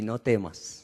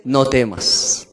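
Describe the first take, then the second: First: "no temas" much lower and softer; hushed "no temas". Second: "No temas" low and very slow, stress on "No"; slow emphatic "No temas". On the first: Preacher repeating God's words softly to the congregation. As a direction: let "no temas" sink to a hush. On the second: Preacher stressing God's command, low and slow. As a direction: lean hard on "No" in "No temas". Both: Shown as a demonstration. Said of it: "Dos palabras importantes".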